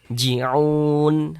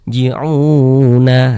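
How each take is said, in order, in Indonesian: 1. Kata ini berakhir dengan huruf nun mati, tanpa vokal. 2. Kata ini berakhir dengan tambahan vokal a di akhir. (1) "kalau kita berhenti di huruf nun kita baca ji'un" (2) "Jangan dibaca ji'una"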